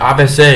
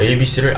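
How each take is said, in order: First: The letters are read as ah-beh-seh. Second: The letters are read as ay-bee-see. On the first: This is how someone else reads it. "이렇게 베트남 사람처럼 읽어요" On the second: This is how the speaker normally reads it. "제가 에이비씨를 에이비씨라고 읽기 때문에"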